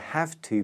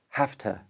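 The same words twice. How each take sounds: First: Both words are said fully and separately. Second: The words are squashed together and shortened.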